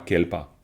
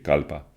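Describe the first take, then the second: First: The first vowel sounds like 'e'. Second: The first vowel sounds like 'a'. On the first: The speaker calls it wrong. "C'est pas kelpa" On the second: The speaker calls it right. "c'est kalpa"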